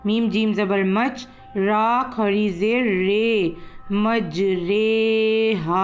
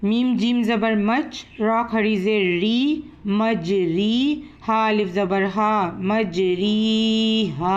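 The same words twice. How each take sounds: First: री read as रे, मजरेहा; slow spelling, रे drawn long; imala. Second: री read with a clear long ee; slow spelling-out, मजरीहा with री; normal reading. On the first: Teacher demonstrates imala to students. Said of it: "हमें री को री नहीं पढ़ना, रे पढ़ना है". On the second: Teacher spells the normal reading for students. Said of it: "normally हम इसको इसी तरीके से पढ़ेंगे". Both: Shown as a demonstration.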